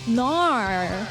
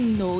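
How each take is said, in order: First: The word is said in an Australian accent. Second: The word is said in a plain accent. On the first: "They say nar" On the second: "when you say no"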